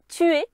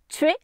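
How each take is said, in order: First: The vowels are split into two syllables. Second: The vowels are merged into one syllable. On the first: "qui normalement étaient des diérèses" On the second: "qui ici se prononce"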